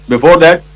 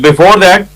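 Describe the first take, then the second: No difference in how they are said.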